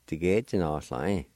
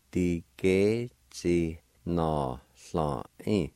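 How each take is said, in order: First: Said in the usual way. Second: Tige chi na sla in, drawn out at half speed; very slow, careful pronunciation. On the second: Shown as a demonstration. Teacher models the word slowly for learners. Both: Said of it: "Pronounce like this".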